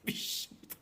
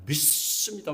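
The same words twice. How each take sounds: First: It is said weakly, without force. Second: It is said forcefully, with a strong s sound. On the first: The speaker calls it wrong. "어떤 목사님 믿습니다가 아니라" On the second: The speaker calls it right. "힘있게 나가야 된대요"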